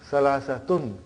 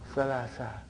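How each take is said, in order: First: The word ends with a full -tun ending. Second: The word ends on a short -a sound. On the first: "we bring tanween. ... So that is why you have salasatun" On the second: "But in pronunciation we will say salasa"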